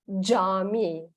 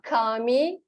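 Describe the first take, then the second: First: The word begins with a j sound. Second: The word begins with a k sound. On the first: The speaker calls it right. "it's cami. J" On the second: The speaker calls it wrong. "It's not kami"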